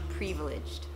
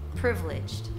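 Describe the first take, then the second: First: The first vowel does not sound like 'it'. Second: The first vowel sounds like the vowel in 'it'. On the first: The speaker calls it wrong. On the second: The speaker calls it right. "I itu, it sounds like it"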